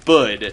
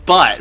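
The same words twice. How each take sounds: First: "bud" with a voiced d ending; bud pronunciation. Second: "but" with a clear t ending; but said plainly. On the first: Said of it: "supposed to be pronounced that way". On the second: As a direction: say "but" with a crisp final t. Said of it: "you're saying". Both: Shown as a demonstration.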